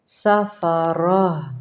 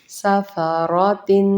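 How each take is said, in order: First: The word ends with a soft 'h' sound. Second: The word ends with a 'tin' sound. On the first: The reader stops on the word. "वक्फ की सूरत में" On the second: The word is joined to what follows. "तनवीन के साथ"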